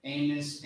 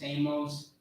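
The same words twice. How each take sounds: First: Amos as AY-muss, weak second vowel; alternative pronunciation. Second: Amos as AY-mohss, full second vowel; alternative pronunciation. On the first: Comparing two ways to say it, Amos softly as AY-muss. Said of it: "I say Amos because". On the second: Comparing two ways to say it, Amos softly as AY-mohss. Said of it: "Some people may say Amos". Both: Shown as a demonstration.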